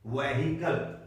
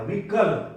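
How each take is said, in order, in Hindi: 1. h की ध्वनि स्पष्ट रूप से बोली जाती है। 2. h की ध्वनि छोड़ दी जाती है। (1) "वहीकल नहीं, वहीकल। ये गलत है।" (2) "एच नहीं बोला जाएगा"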